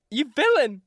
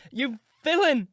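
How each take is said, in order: First: Higher, loud furious cry; crying out in rage. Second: Higher, loud and outraged; crying out again. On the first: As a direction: hurl it at him, outraged. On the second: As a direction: throw the word at him once more. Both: Acted. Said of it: "I began to cry".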